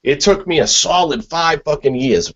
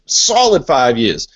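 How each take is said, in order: First: Said in the usual way. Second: "solid" leaned on, the whole phrase slowed right down; slow emphasis on solid. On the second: Shown as a demonstration. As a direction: drag out "solid five years" to make the point.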